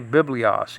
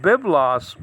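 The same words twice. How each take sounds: First: Biblios said with an extra i, bib-lee-os; old pronunciation. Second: Biblos said slowly as two syllables, bib-los; correct pronunciation. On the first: Teacher recalling the way he used to say it, Biblios said bib-lee-os. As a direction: say it Biblios, with the i sound. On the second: Teacher correcting his old pronunciation, slow careful Biblos. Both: Shown as a demonstration. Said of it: "I used to say Biblios".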